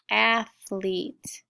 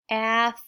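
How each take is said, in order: First: Said in the usual way. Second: "athlete" split slowly into ath... lete; "athlete" in two separate syllables; sounded out. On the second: Shown as a demonstration. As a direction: sound out "athlete" with a clear gap. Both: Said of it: "sound it with me".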